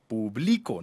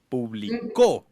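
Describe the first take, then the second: First: The stress is on the middle syllable. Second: The stress is on the last syllable. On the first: I am the one publishing now. "no lleva tilde" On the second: Something was published in the past. "con tilde en la U al final"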